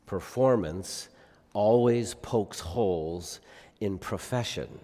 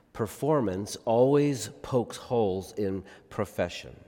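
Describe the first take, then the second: First: Slow, each word set apart; slow emphatic delivery. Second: Said in the usual way. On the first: Shown as a demonstration. Preacher to congregation, slowly driving the point home. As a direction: let it land word by word, slowly. Preacher repeats key line.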